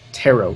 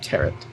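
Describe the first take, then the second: First: The final T is silent. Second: The final T is clearly sounded. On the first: The speaker calls it right. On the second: The speaker calls it wrong.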